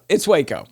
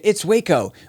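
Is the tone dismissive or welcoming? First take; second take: dismissive; welcoming. First: It sounds curt and dismissive. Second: It sounds warm and welcoming. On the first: Calm down and stop overreacting. "Versus chill out" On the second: Come here and take it easy. "Like, come out here and relax"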